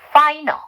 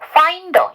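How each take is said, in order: First: The words are linked with no d sound. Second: The words are linked with a clear d sound. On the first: "D 발음을 하지 말고 N 발음을 넘겨요" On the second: "finder 이렇게 해주시면 되고"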